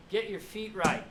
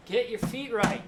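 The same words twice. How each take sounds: First: Half-hearted mock coach yell; milder coach yell. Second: Mock coach yell, higher and louder. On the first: Coach correcting footwork again, milder mock yell. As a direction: repeat the correction with less force. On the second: Coach yelling at player about footwork, loud mock yell. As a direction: bark the correction at a player. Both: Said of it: "The lady's yelling at you".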